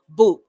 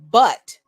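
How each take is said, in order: First: The vowel sounds like the one in 'too'. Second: The vowel sounds like the one in 'up'. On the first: "the phonetic pronunciation uh, to be boot" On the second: "phonetically where it's pronounced but"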